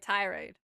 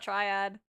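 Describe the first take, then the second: First: The word is said as ti-rade, with r second. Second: The word is said as tri-ad, with r first. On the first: The speaker calls it right. "Okay, tirade" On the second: The speaker calls it wrong. "Not triad"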